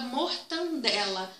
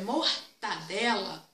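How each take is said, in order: First: Mortandela with an extra N, "mor-tan-dela"; mortandela, the common mistake, with the N sounded; wrong mortandela. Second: Mortadela said slowly with no N, "mor-ta-dela"; mortadela, clean "ta" without a nasal; correct mortadela. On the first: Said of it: "Tem gente que fala mortandela". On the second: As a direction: mortadela slow and careful, no extra N. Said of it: "mas é mortadela". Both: Shown as a demonstration.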